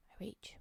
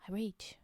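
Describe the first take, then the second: First: I rage whispered softly. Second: Said in the usual way. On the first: Shown as a demonstration. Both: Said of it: "I'm rage puffing".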